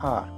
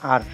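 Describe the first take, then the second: First: The r sound is soft and light. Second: The r sound is strong and heavy. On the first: The speaker calls it right. "আর রটা হালকা হবে" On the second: The speaker calls it wrong. "এটার উচ্চারণ করি আমরা আর"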